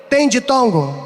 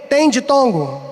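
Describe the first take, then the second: No difference in how they are said.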